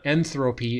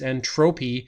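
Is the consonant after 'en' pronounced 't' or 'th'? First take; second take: th; t. First: The middle consonant is a 'th' sound. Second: The middle consonant is a plain 't' sound. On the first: The speaker calls it wrong. "Notice there's no H in there, so it's not entropy" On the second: The speaker calls it right. "it's entropy"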